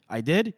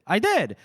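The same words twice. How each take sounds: First: DID lifted as a question; questioning echo. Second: DID hit high as an exclamation; emphatic admission. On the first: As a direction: echo it back, unsure on DID. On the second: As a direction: own up with a punched DID. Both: Acted. Retold exchange, questioning then confirming.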